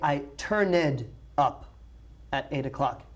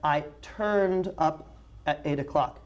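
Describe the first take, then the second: First: Turned is said with an extra syllable. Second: Turned is said as a single syllable. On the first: The speaker calls it wrong. "We do not say, ... That's very, very bad English" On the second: The speaker calls it right. "Guadalupe said"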